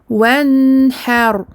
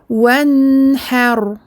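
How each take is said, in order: No difference in how they are said.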